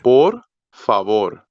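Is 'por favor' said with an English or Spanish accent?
Spanish. It is said with a native Spanish accent. The speaker calls it right. "it's por favor"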